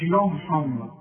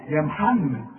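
First: يا rounded like يو, slow; heavy ya. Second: يا محمد with a thin open يا; light ya. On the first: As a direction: darken يا in يا محمد. (تفخيم الياء خطأ) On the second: (ترقيق الياء) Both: Shown as a demonstration. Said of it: "مش يا محمد".

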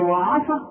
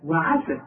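First: وعسى with a thickened a after the ayn, pitched up as a question; disbelieving questioning وعسى, ayn made heavy; wrong heavy ayn. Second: وعسى with a thin, fronted a after the ayn, falling; thin-vowelled "wa-'ase" for وعسى, settled fall; light ayn. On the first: Retold or imitated. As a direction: mimic the error, heavy vowel in وعسى. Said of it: "ما تقولش وعا". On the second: Shown as a demonstration. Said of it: "لا".

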